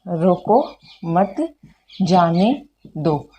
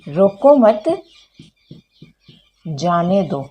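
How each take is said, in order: First: There is a pause after रोको. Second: There is a pause after मत.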